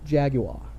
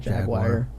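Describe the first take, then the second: First: It is said with a British pronunciation. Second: It is said with an American pronunciation.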